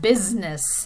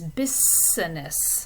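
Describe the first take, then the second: First: The middle S sound is voiced, like a Z. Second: The middle S sound is voiceless, like an S. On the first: The speaker calls it right. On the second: The speaker calls it wrong.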